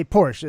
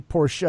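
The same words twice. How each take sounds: First: Porsche as one syllable, PORSH; American Porsche pronunciation. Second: Porsche in two syllables, POR-shuh; correct Porsche pronunciation. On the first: Showing how Americans say it, Porsche as PORSH. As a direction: drop the final e of Porsche. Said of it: "Americans say Porsche". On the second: Correcting the American way, Porsche said POR-shuh. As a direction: add a "shuh" ending to Porsche. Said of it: "It's actually Porsche". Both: Shown as a demonstration.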